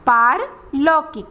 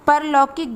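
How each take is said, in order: First: The first syllable has a long aa vowel. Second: The first syllable has a short a vowel. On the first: The speaker calls it right. "पा में आ की मात्रा का प्रयोग किया जाता है" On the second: The speaker calls it wrong. "परलौकिक गलत है"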